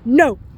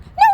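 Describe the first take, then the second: First: It is said once, firm and calmly authoritative. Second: It is screamed in a panicked, frantic way. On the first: The dog will stop in its tracks. The speaker calls it right. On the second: The dog will not stop. The speaker calls it wrong.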